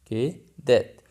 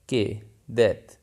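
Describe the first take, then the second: No difference in how they are said.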